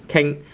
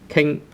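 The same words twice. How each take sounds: No difference in how they are said.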